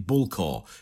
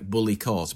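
First: The name is said in two syllables. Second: The name is said in three syllables. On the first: It is said the way locals say it. The speaker calls it right. "it's actually Bull Corps is the way that we pronounce it" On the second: It is read the way the spelling looks. The speaker calls it wrong. "Bully Court is how most Australians who have not heard it's been spoken"

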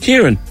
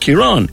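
First: The name is said the British way. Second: The name is said the Irish way. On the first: The speaker calls it wrong. "It is not Ciarán" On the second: The speaker calls it right. "my name is Ciarán"

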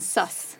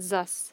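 First: The word begins with a hissing s sound. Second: The word begins with a buzzing z sound. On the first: "rather than" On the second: "So like the German accent"

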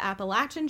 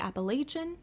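First: It is said with the Southern pronunciation. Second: It is said with a non-Southern pronunciation. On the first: This is how people from the South say it. "we are from the South. We are from North Carolina. We call it the Appalachian Trail" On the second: This is how some people elsewhere say it. "I know some people say Appalachian"

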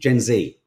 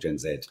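First: The letter Z sounds like the Z in TMZ. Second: The letter Z sounds unlike the Z in TMZ. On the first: The speaker calls it right. "Gen Z. It's like TMZ" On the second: The speaker calls it wrong. "not Gen Z"

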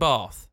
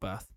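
First: The vowel is a long A sound. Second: The vowel is a short A sound. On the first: The speaker calls it right. "With a long A" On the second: The speaker calls it wrong. "not Bath"

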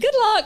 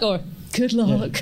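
First: It is said warmly and sincerely. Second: It is said in a doubtful, ominous way. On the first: The speaker is genuinely wishing success. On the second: The speaker expects failure.

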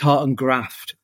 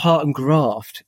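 First: It is said in a northern English accent. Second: It is said in a southern English accent. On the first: The speaker calls it right. "Are you from the north? ... it's Heart and Graft" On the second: The speaker calls it wrong. "it's not Heart and Graft"

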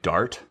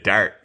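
First: The word is said in an American accent. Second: The word is said in an East Coast Canadian accent. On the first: "an American person would say dart" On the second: "I picked up a little bit of their accent here and there. And it'd be a dart"

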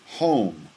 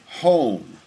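No difference in how they are said.

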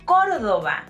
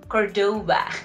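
First: The stress is on the first syllable. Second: The stress is on the second syllable. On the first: The speaker calls it right. "it's Córdoba" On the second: The speaker calls it wrong. "not Cordoba"

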